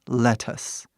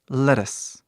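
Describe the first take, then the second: First: The middle T is a clear, simple T. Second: The middle T is a quick R-like tap. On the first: "quando falamos devagar, falamos lettuce" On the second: "quando falamos rápido, nós falamos lettuce. Ele fica um R do português"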